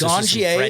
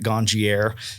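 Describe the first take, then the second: First: The final R sound is left silent. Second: The final R sound is pronounced. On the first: The speaker calls it right. "the R is silent, folks" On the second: The speaker calls it wrong. "Some people still pronounce it Ganjier"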